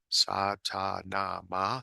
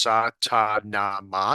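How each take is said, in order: First: The phrase is said quietly. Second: The phrase is said loudly. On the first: "then you say it quieter" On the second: "you say it loudly first"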